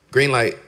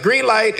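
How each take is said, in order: First: Said in the usual way. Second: Higher, playful retold "Green light"; God's calm reply. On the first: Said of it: "And he was like". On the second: God answering the preacher's protest, lightly voiced. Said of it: "And he's like".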